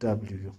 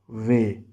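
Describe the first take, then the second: First: The letter is said like "double-you". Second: The letter is said like "vay". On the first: This is the English name of the letter. The speaker calls it wrong. "not W" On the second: This is the German name of the letter. The speaker calls it right. "in German it is W"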